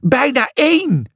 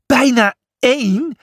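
First: Higher, falling mock shriek on één; a lightly acted shrill answer. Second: "Bijna één?" rising high in disbelief; a storybook double take; incredulous. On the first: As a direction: state "Bijna één" flatly and high, falling on één. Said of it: "gilde Lucia". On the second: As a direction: stress bijna and lift the end, higher. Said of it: "Je zit met de dolle". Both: A narrator's reading.

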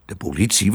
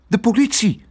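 First: Said in the usual way. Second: Put-on high, urgent child's exclamation; high-pitched, anxious announcement; alarmed girl. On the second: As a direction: blurt out the danger in alarm. Girl reveals why they flee.

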